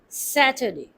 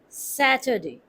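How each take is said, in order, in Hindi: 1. बीच का अक्षर श्वा ध्वनि में बदल जाता है। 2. बीच का अक्षर श्वा ध्वनि में बदल जाता है।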